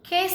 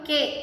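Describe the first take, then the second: First: The k is said with a puff of air. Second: The k is said without a puff of air. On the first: The speaker calls it right. "A puff of air should come out side" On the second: The speaker calls it wrong. "మామూలుగా మనం కే అంటాం కదా"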